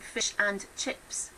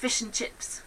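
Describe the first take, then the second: First: The word 'and' is pronounced fully and clearly. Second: The word 'and' is reduced to a short 'n'. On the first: "in my head, I'm saying fish and chips" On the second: "what you are hearing is fish and chips. I miss out the A and the D"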